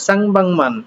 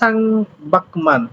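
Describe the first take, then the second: First: The second syllable ends in an ng sound. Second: The second syllable ends in a k sound. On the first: The speaker calls it right. "তাহলে সাং বাংমান এই আর কি" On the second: The speaker calls it wrong. "এটা কি পরিবর্তন হবে?"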